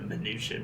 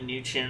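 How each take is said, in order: First: The name starts with an audible M sound. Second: The name starts without an M sound. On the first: "they were pronouncing it Mnuchin" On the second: "the M is silent"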